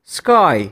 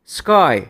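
No difference in how they are said.

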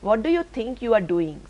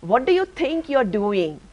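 First: It is read flatly, without force. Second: It is said angrily, high and forceful.

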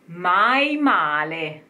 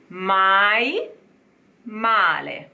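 First: The two words are run together without a break. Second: The two words are said separately with a break. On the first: "and then together" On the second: "let's say it separate"

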